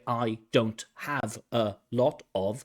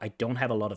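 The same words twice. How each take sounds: First: Each word is said separately, without linking. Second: The words run together, linked in connected speech. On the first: The speaker calls it wrong. "We don't hear" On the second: The speaker calls it right. "It's connected"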